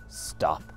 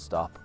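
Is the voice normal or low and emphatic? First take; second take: low, emphatic; normal. First: It is said low and emphatic. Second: It is said in a normal voice.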